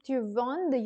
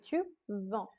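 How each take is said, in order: First: A d sound is pronounced at the end. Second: The final d is silent. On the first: The speaker calls it wrong. "Instead of saying tu vendes" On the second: The speaker calls it right. "you have to say tu vends"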